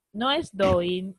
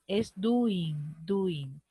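First: Slow correction. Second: Said in the usual way. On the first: Shown as a demonstration.

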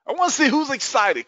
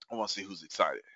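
First: High, excited call to the crowd; hyped-up rallying call. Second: Much softer and lower, almost to himself; low, quiet repeat. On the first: Host wants more audience participation, hyped-up high call. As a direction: pump up the audience, pitched way up. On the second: Host waits for audience replies, low and quiet. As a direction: say it low, holding the energy back. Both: Real, not acted.

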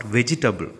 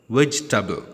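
First: "vegetable" in four syllables, "vej-i-tay-bul"; wrong VEGETABLE. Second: "Vegetable" in three syllables, "vej-tuh-bul"; correct VEGETABLE. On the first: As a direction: sound every vowel in "vegetable". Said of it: "Next word is not vegetable". ("vegetable" mispronounced as "vej-i-tuh-bul") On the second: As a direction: drop the second vowel of "Vegetable". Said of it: "Three syllables will act". ("Vegetable" said "VEJ-tuh-bul") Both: Shown as a demonstration.

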